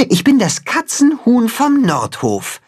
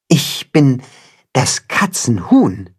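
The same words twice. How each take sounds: First: Proudly, high and ringing, stress on bin. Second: Said in the usual way. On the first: Acted. Timme tells the cat who he is, proudly. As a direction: announce it with puffed-up pride. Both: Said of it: "sagt Timme stolz".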